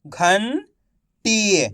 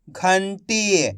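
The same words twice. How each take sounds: First: "घंटी" split slowly, pause before टी; syllable by syllable. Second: "घंटी" blended into one word; syllables joined. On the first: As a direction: sound out "घंटी" as घन, then टी. ("घंटी" को तोड़कर, धीरे-धीरे) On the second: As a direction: say "घंटी" whole, without the pause. ("घंटी" मिलाकर एक शब्द में) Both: Shown as a demonstration. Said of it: "एक एक अक्षर का उच्चारण करके".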